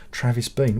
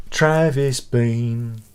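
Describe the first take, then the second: First: Said in the usual way. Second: "Travis Bean" stretched out very slowly; "Travis Bean" pronounced slowly, every syllable drawn long. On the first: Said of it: "reading the name off the screen". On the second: Shown as a demonstration. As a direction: drawl out "Travis Bean" as if tasting the name. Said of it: "saying the name again slowly".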